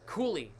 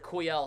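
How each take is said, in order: First: The name sounds like 'koo-lee'. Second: The name sounds like 'koo-yel'. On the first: The speaker calls it right. "It's Cooley" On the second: The speaker calls it wrong. "I'm saying Kuyel"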